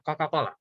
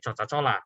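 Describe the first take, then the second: First: The C letters are pronounced as k sounds. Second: The C letters are pronounced as ch sounds. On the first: The speaker calls it right. "bacanya pakai K" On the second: The speaker calls it wrong. "kalau terjemahannya mentah-mentah nanti dibacanya Coca-Cola, which is salah"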